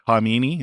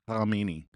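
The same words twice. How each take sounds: First: The name starts without any throaty consonant. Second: The name starts with a raspy throat sound. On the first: "the K is silent" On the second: "when you make that sound"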